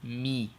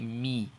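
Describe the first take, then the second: Both takes have the same delivery.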